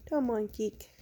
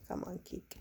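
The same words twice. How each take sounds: First: Said in the usual way. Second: Whispering. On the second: Real, not acted.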